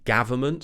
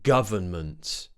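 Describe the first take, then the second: First: The first vowel is an 'a' sound. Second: The first vowel is an 'uh' sound. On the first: The speaker calls it wrong. "Many people pronounce it as a" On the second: The speaker calls it right. "the uh sound"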